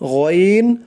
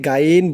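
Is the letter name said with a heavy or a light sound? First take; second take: heavy; light. First: The letter name is said heavy and thick. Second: The letter name is said light and thin. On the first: The speaker calls it right. "মোটা করে" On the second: The speaker calls it wrong. "অনেকে গাইন বলে"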